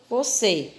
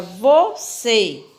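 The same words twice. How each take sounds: First: Said in the usual way. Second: "você" slowly split, vo-CÊ, leaning on CÊ; stress on last syllable. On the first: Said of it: "qual é a sílaba mais forte". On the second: Shown as a demonstration. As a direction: say "você" syllable by syllable to show the strong ending. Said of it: "pronunciamos a palavra você".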